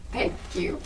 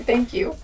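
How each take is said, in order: First: Breathy whispered thank you, much softer; odd whispered thanks. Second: Said in the usual way. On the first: Real, not acted. Answering an imagined bless you, she whispers thank you. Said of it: "I don't know why I said it like that". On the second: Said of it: "If any of you did say bless you".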